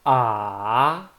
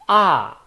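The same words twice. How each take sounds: First: The pitch dips down, then rises. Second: The pitch falls from high to low. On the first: "down first, then up" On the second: "from up to down"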